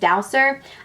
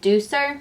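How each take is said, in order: First: The first syllable sounds like 'dow'. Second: The first syllable sounds like 'doo'. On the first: The speaker calls it wrong. "everybody says I say it wrong because I say it as Dowser" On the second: The speaker calls it right. "people are telling me I, it's called Deucer"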